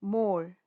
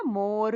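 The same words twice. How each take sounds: First: "मोर" ending on the long vowel, R unsounded; silent R. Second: "मोर" with the final R fully sounded; R wrongly stressed. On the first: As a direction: let the R drop off "मोर". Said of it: "R is silent". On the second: Teacher showing what not to say, "मोर" with R sounded. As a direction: pronounce the R at the end of "मोर". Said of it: "र जोर से नहीं बोल रहे". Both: Shown as a demonstration.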